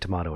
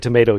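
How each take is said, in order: First: It is said with a British pronunciation. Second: It is said with an American pronunciation. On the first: "they say tomato in Britain" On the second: "they say tomato here in the U.S"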